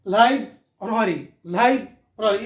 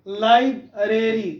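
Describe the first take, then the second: First: लाइब्रेरी as "laib-rari"; slow लाइब्रेरी with an open "a" in "rari"; corrected लाइब्रेरी. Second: लाइब्रेरी as "laib-reri"; slow लाइब्रेरी with an "ay" in "reri"; mispronounced लाइब्रेरी. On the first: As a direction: model लाइब्रेरी as "lai-brari". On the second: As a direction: say लाइब्रेरी the common way, "lai-breri". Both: Shown as a demonstration. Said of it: "तो लाइब्रेरी गलत है".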